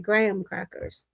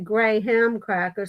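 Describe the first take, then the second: First: The word graham is said run together, compressed. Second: The word graham is said in full, not run together. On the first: This is how the speaker says it. "I say it run together" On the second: This is how others say it. "Like I don't say"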